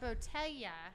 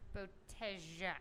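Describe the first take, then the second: First: The double L has a soft sound, not J. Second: The double L is sounded like a J. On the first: "It's not" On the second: "the double L here is pronounced as a J"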